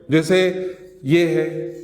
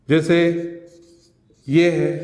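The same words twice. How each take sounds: The two takes are said the same way.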